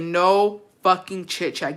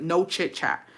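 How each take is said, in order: First: Slow, weighty "No fucking chit chat"; "No fucking chit chat" stretched out for emphasis; emphatic retold order. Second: Said in the usual way. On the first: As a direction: space out each word of "No fucking chit chat". Repeats the order more emphatically.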